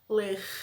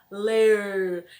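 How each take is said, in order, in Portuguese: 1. O R final é leve e curto. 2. O R final é forte e mais demorado. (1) "Em outros lugares falam ler" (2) "A gente puxa um pouquinho mais o R"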